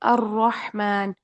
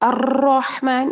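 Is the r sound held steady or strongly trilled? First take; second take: steady; trilled. First: The r is held firm without trilling. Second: The r is trilled with several vibrations. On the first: "जैसे अर्रहमान" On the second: "ये गलत है"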